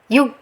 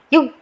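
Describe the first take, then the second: First: The final consonant sound is stopped and held. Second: The same.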